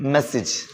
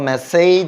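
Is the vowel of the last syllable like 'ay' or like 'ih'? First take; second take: ih; ay. First: The last syllable has a short 'ih' vowel. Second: The last syllable has an 'ay' vowel. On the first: The speaker calls it right. "ഏജ് അല്ല, ഇജ് ആയിരിക്കും" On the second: The speaker calls it wrong. "മെസ്സേജ് എന്ന് പറയണ്ട"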